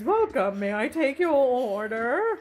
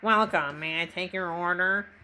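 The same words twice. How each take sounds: First: It is said in a plain, normal voice. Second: It is said in a put-on character voice.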